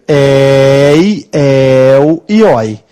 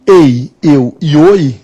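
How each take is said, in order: First: Drawn-out, wide-open vowels in "ei, el e oi"; open diphthongs. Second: Closed vowels in "ei, eu e oi"; closed diphthongs. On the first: Teacher showing students the open sound, long open "ei, el e oi". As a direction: stretch "ei, el e oi" slowly with open e and o, éi, éu, ói. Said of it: "Para ser um som aberto". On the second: Teacher showing students the closed sound, closed "ei, eu e oi". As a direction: say "ei, eu e oi" with close-mid e and o, as in "eu". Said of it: "eles têm som fechado". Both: Shown as a demonstration.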